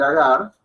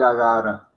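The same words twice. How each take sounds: First: Agar clipped at the r, as in speech; spoken agar. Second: Agara with a full added final a, as in chanting; chanted, let agara end on an added a. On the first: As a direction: end agar on the r with no vowel. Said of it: "en el cántico no va a decir agar". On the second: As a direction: agara sung-style with the extra vowel. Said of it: "sino va a decir agara". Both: Shown as a demonstration.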